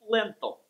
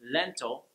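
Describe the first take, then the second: First: The L is dark, with the tongue middle raised. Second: The L is clear, made with the tongue tip. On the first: The speaker calls it wrong. "you'll hear lentil" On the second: The speaker calls it right. "spoken by a native English speaker"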